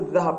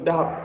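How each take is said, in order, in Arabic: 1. الحرف صوت 'dh' ناعم. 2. الحرف صوت 'd' قوي. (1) "ولا يقول الذهب أيضا" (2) "يقول الذهب"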